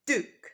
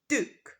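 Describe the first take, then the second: The two takes are said the same way.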